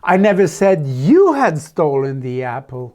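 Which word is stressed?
you. The word "you" carries the stress. A different person was accused. "No, I said it was Jennifer"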